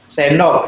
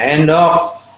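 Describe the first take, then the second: First: The word is said with its first consonant. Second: The word is said without its first consonant. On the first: The speaker calls it right. "Kalau normal dia bisa mengucapkan dengan benar" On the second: The speaker calls it wrong. "dia sebutnya endok"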